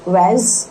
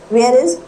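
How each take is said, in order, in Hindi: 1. दोनों शब्द मिलकर एक छोटे अक्षर में बदल जाते हैं। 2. दोनों शब्द पूरे और अलग-अलग बोले जाते हैं।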